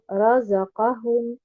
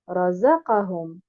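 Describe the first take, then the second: First: The stress falls on the ra and qa syllables. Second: The stress falls on the za syllable only. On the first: The speaker calls it right. "en plaçant un nabr sur harakat al-ra et harakat al-qaf" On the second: The speaker calls it wrong. "en plaçant uniquement un nabr sur harakat al-zay"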